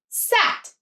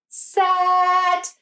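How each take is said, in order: First: The word is said quickly and smoothly. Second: The word is stretched out slowly.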